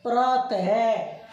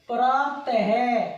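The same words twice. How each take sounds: First: प्रात है drawn out slowly, a clear h breath closing the word; deliberate prat-ha, slow and breathy at the end; visarga demo. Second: प्रात है said slowly, with a breathy h sound after प्रात; visarga demo. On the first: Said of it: "इनका मतलब क्या पढ़ा हमने". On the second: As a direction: stretch प्रात है out and breathe the final है. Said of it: "हम है बोलते हैं". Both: Shown as a demonstration.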